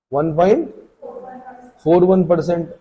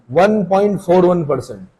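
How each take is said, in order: First: "one point", pause, then "four one percent", figure broken in two halves; split with a pause. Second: Said in the usual way. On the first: Shown as a demonstration. Teacher repeats the figure to students, split with a pause. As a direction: break it after "one point" so students can note it down.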